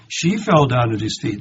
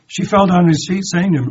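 First: Said in the usual way. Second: Louder and higher, pressing the words; emphatic repeat. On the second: A narrator's reading. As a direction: drive the verse home to the congregation. Preacher repeats verse with force.

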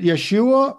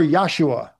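First: "Yeshua" with an "eh" in the first syllable; first vowel of "Yeshua" said "yeh"; Yeshua pronunciation. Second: "Yahshua" with an "ah" in the first syllable; first vowel of "Yahshua" said "yah"; Yahshua pronunciation. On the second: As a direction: say "Yahshua" opening on a clear YAH. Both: Shown as a demonstration. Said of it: "over the emphasis of the word".

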